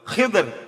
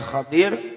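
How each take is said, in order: First: An i after kh, no vowel after d. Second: An a after kh, an i after d. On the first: "kha-nya kasroh, dhadnya sukun" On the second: "bi fathil kha'i ... wa kasri dhadi"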